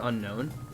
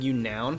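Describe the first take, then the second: First: The name begins with an 'un' sound. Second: The name begins with a 'you' sound. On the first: The speaker calls it right. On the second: The speaker calls it wrong.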